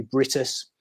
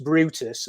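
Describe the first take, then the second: First: Brutus said as BRIT-us, the u like a short "i"; Welsh pronunciation. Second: Brutus said with a long "oo", BROO-tus; English pronunciation. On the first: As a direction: say Brutus the Welsh way, first vowel as in "bit". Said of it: "a U in Welsh is pronounced like". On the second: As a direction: say Brutus the English way, first vowel as "oo". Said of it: "could either be pronounced Brutus". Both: Shown as a demonstration.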